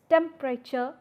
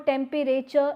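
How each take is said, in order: First: A middle vowel is dropped, shortening the word. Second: Every syllable of the word is pronounced fully. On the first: The speaker calls it right. "it's temperature" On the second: The speaker calls it wrong. "it's no more temperature"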